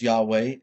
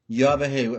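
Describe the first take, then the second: First: The middle consonant is a W sound. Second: The middle consonant is a V sound. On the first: The speaker calls it wrong. "mispronounced by many as Yahweh" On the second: The speaker calls it right. "it is a V in the original"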